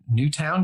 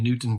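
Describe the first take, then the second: First: The second syllable is a full 'town'. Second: The second syllable is a reduced 'ton'. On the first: The speaker calls it right. "or Newtown" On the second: The speaker calls it wrong. "I keep saying things wrong"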